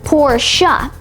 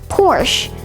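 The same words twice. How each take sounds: First: The word ends with a final vowel sound. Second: The word ends without a final vowel sound. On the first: The speaker calls it right. "actually pronounced" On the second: The speaker calls it wrong. "commonly mispronounced as"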